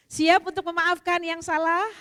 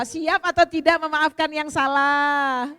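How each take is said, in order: First: Loud, rising question to the crowd; preacher rousing the women to forgive; rallying call. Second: Loud and slow, each word drawn out; preacher pressing the crowd to commit; slow rallying call. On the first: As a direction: call out to the room for an answer. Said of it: "asks audience to forgive". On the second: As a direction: stretch the question to demand an answer. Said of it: "repeats call to audience". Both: Real, not acted.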